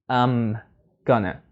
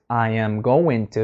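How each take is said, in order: First: The words are squeezed into two short sounds. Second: Every word is said fully and separately. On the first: The speaker calls it right. "you can put it together as well" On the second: The speaker calls it wrong. "It's too long"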